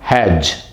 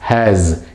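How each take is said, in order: First: The word ends with a j sound. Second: The word ends with a z sound. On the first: The speaker calls it wrong. "It's not hedge" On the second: The speaker calls it right. "It's has"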